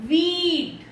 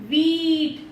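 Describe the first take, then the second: Both takes have the same delivery.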